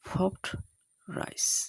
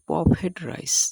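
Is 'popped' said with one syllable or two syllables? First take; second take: one; two. First: Popped is said as one syllable, popt. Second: Popped is split into two syllables, pop-ed. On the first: The speaker calls it right. "ফ ফ ফ হসন্ত ড হসন্ত" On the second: The speaker calls it wrong. "আমরা বলে থাকি"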